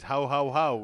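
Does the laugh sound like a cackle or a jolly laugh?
jolly laugh. A plain, jolly laugh with no twist. This is how the character really laughs. The speaker calls it right. "Santa Claus says ho ho ho"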